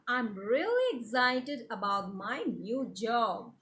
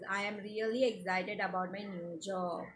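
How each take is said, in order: First: It is read with lively excitement. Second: It is read flatly with no feeling.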